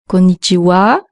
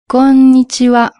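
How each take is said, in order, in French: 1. La dernière syllabe porte un accent fort. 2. La dernière syllabe ne porte pas d'accent fort. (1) "accent tonique à la fin. Alors fais attention de ne pas dire"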